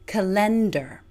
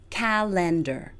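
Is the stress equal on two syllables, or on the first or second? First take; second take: second; equal. First: The stress falls on the second syllable. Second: The first two syllables are stressed equally. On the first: "places full stress on the second syllable" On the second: "places equal stress on the first two syllables"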